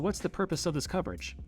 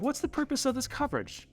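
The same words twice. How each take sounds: First: The question is said with a normal pitch. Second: The question is said with a high pitch. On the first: It comes across as direct and confident. The speaker calls it right. "You just need to ask" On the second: It comes across as less confident, though meant to sound interested. The speaker calls it wrong. "Instead of"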